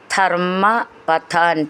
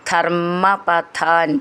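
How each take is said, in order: First: The two words are said separately. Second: The two words run together with a doubled m.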